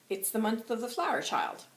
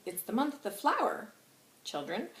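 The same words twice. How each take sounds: First: Put-on a single "child" closes the phrase; ending on "child". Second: Put-on "flower" stressed, ending on a rising "children"; addressed to children. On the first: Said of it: "or is he saying". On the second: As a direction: read it as a plain address to "children". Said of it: "So is he saying". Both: Shown as a demonstration.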